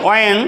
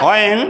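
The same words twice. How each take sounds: The two takes are said the same way.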